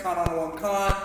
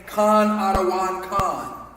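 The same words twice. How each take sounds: First: Fast slurred version. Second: Slow, every syllable of "Khan Adawan Khan" given its full weight; proper pronunciation. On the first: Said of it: "when you hear it say it real fast". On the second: Teacher to class, proper slow "Khan Adawan Khan". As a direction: say "Khan Adawan Khan" slowly and carefully. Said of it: "to properly pronounce it". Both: Shown as a demonstration.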